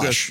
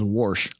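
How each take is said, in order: First: The word is said in a standard accent. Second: The word is said in a strong Midwestern accent.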